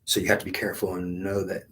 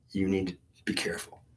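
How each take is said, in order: First: Said in the usual way. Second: Hushed, breathy warning with no voice; whispered warning. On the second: Retold or imitated. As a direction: drop to a whisper to caution. Retold warning from God, whispered.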